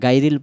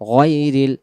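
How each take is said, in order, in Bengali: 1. প্রথম অক্ষরটি 'gai' এর মতো শোনায়। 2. প্রথম অক্ষরটি 'ghoy' এর মতো শোনায়।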